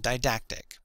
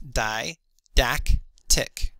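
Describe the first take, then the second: First: Said in the usual way. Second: Di-dac-tic, slowly syllable by syllable; sounding out words. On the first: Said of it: "that's how it would sound". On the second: Shown as a demonstration. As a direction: say Di-dac-tic with a pause between each syllable. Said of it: "the pronunciation guide would sound like this if I were to sound it out".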